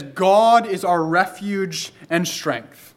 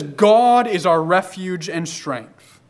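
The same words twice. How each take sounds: First: Slow, weighty "God is our refuge and strength"; slow emphatic quote. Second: "God is our refuge and strength" again, slow, "God" stressed; slow emphatic repeat. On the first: Preacher stresses "God" in "God is our refuge and strength", slow and weighty. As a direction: lean on "God" and draw each word out slowly. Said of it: "And he says". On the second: Preacher repeats "God is our refuge and strength" slowly, stressing "God". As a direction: drive it home slowly, leaning on "God". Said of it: "No, he says". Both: Shown as a demonstration.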